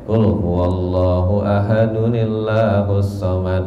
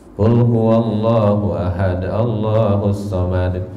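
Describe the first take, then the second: First: Ahad joins Allahu through an added nil sound. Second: Ahad runs into Allahu with no added nun. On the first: The speaker calls it right. "Kalau wasol mah bacanya" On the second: The speaker calls it wrong. "Jangan misalnya kayak gini"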